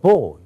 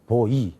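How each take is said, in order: First: It starts strong and then weakens. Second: It is said with even, flat force. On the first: The speaker calls it right. "boy에 가서 힘 주고 그다음에 빼야 되거든요. 이렇게 해야 되는데" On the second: The speaker calls it wrong. "그러면 안 된다"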